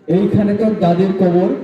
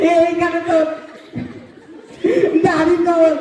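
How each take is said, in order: First: It is spoken calmly without laughter. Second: It is spoken while laughing.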